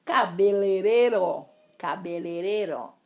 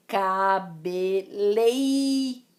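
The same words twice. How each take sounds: First: Cabeleireiro said as cabelereiro, first i dropped; wrong form. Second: Cabeleireiro with both ei diphthongs; slowly, ca-be-lei-rei-ro; correct form. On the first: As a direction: Cabeleireiro without the ei diphthong. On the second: Teacher giving the right form, slow and stressed. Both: Shown as a demonstration. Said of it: "Existem dois is aí".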